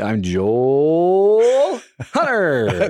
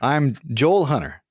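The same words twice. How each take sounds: First: Loud and booming, like an arena announcer. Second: Calm, with pitch rising on Joel, falling on Hunter. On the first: The speaker calls it wrong. "I was trying to do it like I was going to run out onto a basketball court" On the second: The speaker calls it right. "You're supposed to go up at the end of your first name and then down"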